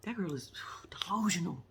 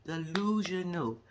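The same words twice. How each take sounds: First: Hushed disbelieving whisper; soft whispered verdict; whispered aside. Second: Drawn-out "Delusional"; slow deliberate "Delusional"; slow emphatic repeat. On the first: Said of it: "aside about the girl". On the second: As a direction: stretch "Delusional" slowly, each syllable. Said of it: "repeats the word". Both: Real, not acted.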